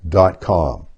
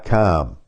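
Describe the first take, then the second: First: Dot com is said with a General American accent. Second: Dot com is said with a Midwestern accent. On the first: "I would say .com" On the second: "Midwesterners, Ohio, around there, .com"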